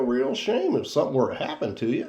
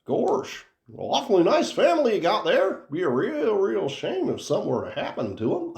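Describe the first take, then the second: First: Lightly voiced Goofy threat; mild Goofy menace; a hint of Goofy. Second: High, innocent-sounding Goofy making a mob threat; sweet cartoon dog delivering a gangster threat; threatening Goofy. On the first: Host's first take of the subscribe threat, lightly in Goofy voice. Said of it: "Why does your Goofy sound so Southern". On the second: Host shows the co-host why Goofy sounds threatening, high and sweetly menacing. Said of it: "Goofy sounds very threatening".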